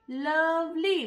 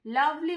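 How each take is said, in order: First: লাভলি stretched into two clear syllables, লাভ-লি. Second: Said in the usual way. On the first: Shown as a demonstration. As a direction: sound out লাভলি in halves. (লাভলি দুই সিলেবলে ভেঙে বলা) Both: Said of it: "দুটো syllable রয়েছে লাভলিতে".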